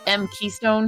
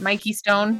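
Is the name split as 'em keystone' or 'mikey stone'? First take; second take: em keystone; mikey stone. First: It is split as em plus keystone. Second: It is split as mikey plus stone. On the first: The speaker calls it wrong. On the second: The speaker calls it right. "I'm assuming I'm saying this right"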